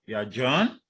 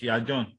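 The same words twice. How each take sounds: First: "John" lifted sharply at the end; doubtful fall-rise. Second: Said in the usual way. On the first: Shown as a demonstration. Teacher contrasting doubt with plain statement, doubtful fall-rise. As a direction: sound unsure, rising on "John". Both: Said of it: "not you are John".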